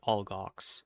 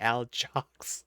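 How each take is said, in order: First: The middle consonant is a hard G sound. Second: The middle consonant is a J sound. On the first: The speaker calls it right. "everybody says Algox ... With a little bit of a British accent to it" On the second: The speaker calls it wrong. "She pronounced it Aljox with a hard J"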